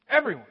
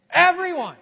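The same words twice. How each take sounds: First: Said in the usual way. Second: Everyone. called out high and loud; loud preacher's answer; emphatic everyone. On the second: Shown as a demonstration. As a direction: ring it out to the crowd. Answering his own question.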